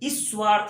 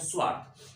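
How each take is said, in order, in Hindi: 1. s से पहले i स्वर जुड़ता है। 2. s से पहले कोई स्वर नहीं जुड़ता। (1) "कभी हम लोग ई की ध्वनि का उच्चारण करने लगते हैं" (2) "एक्स्ट्रा किसी भी ध्वनि का उच्चारण नहीं करते हैं, सीधे हम लोग कह देते हैं"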